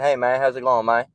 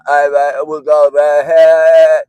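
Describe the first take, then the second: First: It is said with a slight accent. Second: It is said with a heavy, exaggerated accent.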